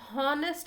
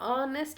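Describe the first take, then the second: First: The word begins with an h sound. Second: The word begins directly with a vowel. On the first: The speaker calls it wrong. "ಹಾನೆಸ್ಟ್ ಅಂತ ಓದಲ್ಲ" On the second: The speaker calls it right. "ನಾವು ಆನೆಸ್ಟ್ ಅಂತ ಓದ್ತೀವಿ"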